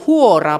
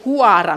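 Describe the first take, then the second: First: The first vowel is pronounced as uo. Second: The first vowel is pronounced as ua. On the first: The speaker calls it wrong. "he tuottivat sen tämmöisessä muodossa kuin huora pääsky" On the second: The speaker calls it right. "eikä siis huara, niin kuin se tietysti pitäisi olla"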